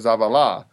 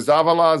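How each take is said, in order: First: The stress is on the third syllable. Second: The stress is on the first syllable.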